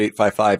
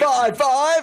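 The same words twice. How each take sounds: First: It is said plainly, with low energy. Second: It is said energetically, with conviction.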